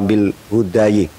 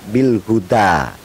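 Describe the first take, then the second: First: The word ends in an ayi sound. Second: The word ends in an a vowel. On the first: The speaker calls it wrong. "atau bil hudayi" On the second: The speaker calls it right. "dibaca bil huda tetap"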